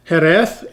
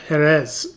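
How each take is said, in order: First: The final sound is a lisped th. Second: The final sound is a plain s. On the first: The speaker calls it right. "I'm trying to say things correctly because they have an intentional lisp" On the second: The speaker calls it wrong. "instead of"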